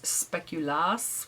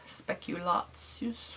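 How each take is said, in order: First: It is said with a short -as ending. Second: It is said with a long -atsus ending. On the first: This is the Danish form of the name. "which I think is the Danish way" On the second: This is the German form of the name. "which is the German way"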